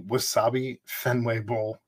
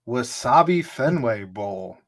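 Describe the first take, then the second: First: It is said in a flat, unexcited way. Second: It is said in a lively, excited way. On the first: The speaker calls it wrong. "Don't say it like that" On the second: The speaker calls it right. "Let's be excited"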